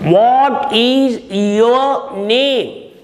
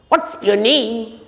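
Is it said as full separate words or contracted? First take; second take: full; contracted. First: Each word is said fully and separately. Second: The first two words are joined into one. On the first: The speaker calls it wrong. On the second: The speaker calls it right.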